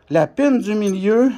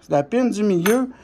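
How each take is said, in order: Both takes have the same delivery.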